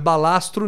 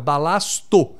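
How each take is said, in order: First: An 'r' sound follows the 't'. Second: No 'r' sound follows the 't'. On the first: The speaker calls it wrong. "Não é balastro" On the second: The speaker calls it right. "é balasto"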